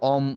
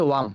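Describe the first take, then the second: First: The word starts with a plain 'o' vowel. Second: The word starts with a clear 'w' sound. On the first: The speaker calls it wrong. "তোমার এটা অম, অম আকারে আসে।" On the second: The speaker calls it right. "But সঠিকটা হচ্ছে ওয়াম।"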